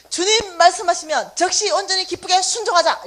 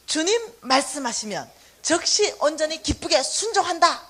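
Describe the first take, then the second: First: Louder, higher chanted motto; "순종하자" called out loud and strong; shouted slogan. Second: Said in the usual way. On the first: Shown as a demonstration. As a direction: shout it like a rallying cry. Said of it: "세 번씩 구호를 외치는 거예요". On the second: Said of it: "대문짝마당에 뭐 하나 붙여놨어요".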